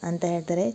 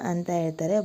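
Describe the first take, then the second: The two takes are said the same way.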